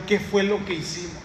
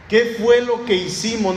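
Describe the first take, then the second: First: A hushed, worried murmur of realization; softly worried crowd asking themselves; quiet dismay. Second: Alarmed crowd crying out the question; alarmed outcry. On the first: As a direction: say it under your breath in alarm. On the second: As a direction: blurt it out in alarm. Crowd realizing its mistake. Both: Retold or imitated.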